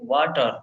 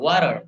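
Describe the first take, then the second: First: It is said in an Indian accent. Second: It is said in a British accent.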